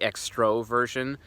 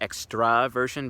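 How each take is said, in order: First: The second vowel sounds like 'o'. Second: The second vowel sounds like 'a'. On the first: This is the form the dictionary adopted. The speaker calls it wrong. "I don't say extroversion" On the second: This is the original form of the term. The speaker calls it right. "I say extraversion because that's the original term"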